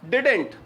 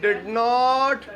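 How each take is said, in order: First: The two words are joined into one syllable pair. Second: It is said as two separate full words.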